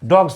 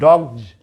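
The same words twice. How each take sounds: First: The word ends with an s sound. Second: The word ends with a z sound. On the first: The speaker calls it wrong. "डॉग्स नहीं" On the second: The speaker calls it right. "इसका उच्चारण जेड जैसा आपको करना पड़ेगा"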